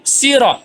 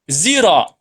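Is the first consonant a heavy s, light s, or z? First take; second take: light s; z. First: It starts with a light, thin s sound. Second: It starts with a z sound. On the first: This follows a permitted variant reading. "Sod dibaca sin" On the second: This follows another permitted variant reading. "menggunakan huruf za"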